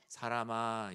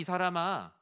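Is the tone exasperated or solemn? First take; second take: solemn; exasperated. First: It is said in a solemn, dignified tone. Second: It is said in an exasperated, incredulous tone. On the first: It is a formal, weighty address. The speaker calls it wrong. "우린 되게 사람아 이런 건 줄 알지만" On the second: The speaker cannot believe how badly they were misunderstood. The speaker calls it right. "오맨 아니 이 사람아"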